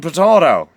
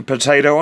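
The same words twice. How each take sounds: First: "potato" with a broad ah, "po-tah-to"; "potato" with middle vowel as in father; pronunciation contrast. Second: "Potato" with a long ay, "po-tay-to"; "Potato" with middle vowel as in day; pronunciation contrast. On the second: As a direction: say "Potato" to rhyme with Plato. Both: Shown as a demonstration. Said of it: "Talking of accents".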